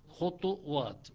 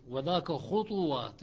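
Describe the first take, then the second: First: خطوات with a still ط and a light echo; Shuba reading. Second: خطوات with the ط voiced with u, drawn out slowly; Hafs reading. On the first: Teacher demonstrates Shuba's خطوات with qalqala. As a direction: say خطوات with the ط held still and bounced. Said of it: "سوف تقلقل، خطوات". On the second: Teacher demonstrates Hafs's خطوات, slowly. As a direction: say خطوات as khutuwat with a full u after the ط. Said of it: "الفرق بينهما قليل جدًا". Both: Shown as a demonstration.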